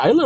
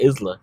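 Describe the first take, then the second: First: "Isla" said as EYE-la, s silent. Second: "Isla" said as IZ-la, s voiced; Isla with s sounded. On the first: Co-host checking a name, "Isla" as EYE-la. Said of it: "It's spelled Isla, but". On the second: Co-host checking a name, "Isla" as IZ-la. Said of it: "my name says Isla Summer". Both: Shown as a demonstration.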